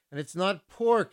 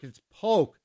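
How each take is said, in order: First: "pork" said with an r, the wrong way; wrong pronunciation. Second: "Polk" said as poke, no l, rising; right pronunciation. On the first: DJ showing listeners the wrong way, "pork" with an r. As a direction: say "pork" with a clear r sound. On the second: DJ correcting listeners, "Polk" said like poke, with a louder push. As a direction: land on "Polk" like poke, pushed a little louder. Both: Shown as a demonstration. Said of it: "You gotta say it right".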